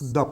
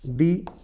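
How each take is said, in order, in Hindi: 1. यह शब्द छोटी 'uh' आवाज़ पर खत्म होता है। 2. यह शब्द लंबी 'ee' आवाज़ पर खत्म होता है। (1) "द को क्या पढ़ते हैं? द पढ़ते हैं।" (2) "यहां पर द का उच्चारण क्या होगा? दी होगा।"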